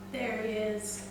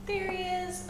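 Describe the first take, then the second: First: Said in the usual way. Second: High, delighted call of discovery; light up as you spot it; excited spotting. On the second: Real, not acted. Spotting the gecko again.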